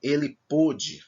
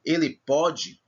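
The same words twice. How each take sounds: First: Pôde with a closed O, as in past tense; slow, close-vowelled stressed PÔ in pôde. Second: Pode with an open O, as in present tense; higher pitch, open-vowelled stressed PÓ in pode. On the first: Teacher giving the past tense, closed O in pôde. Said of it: "é diferente". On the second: Teacher giving the present tense, open O in pode. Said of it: "se eu digo no presente". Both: Shown as a demonstration.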